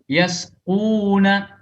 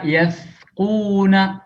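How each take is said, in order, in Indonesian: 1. Huruf tengahnya bunyi 's' biasa. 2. Huruf tengahnya bunyi 'th' seperti pada 'think'. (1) "membaca sin dengan sa" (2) "dibaca yasquna, keliru"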